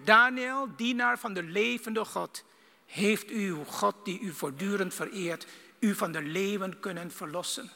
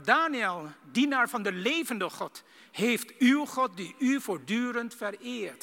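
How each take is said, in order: First: King calling into the den. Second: Mild sorrowful plea, slowed; sad voice. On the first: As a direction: shout the name, then ask. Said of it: "riep hij". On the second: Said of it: "met de droeve stem". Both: Acted.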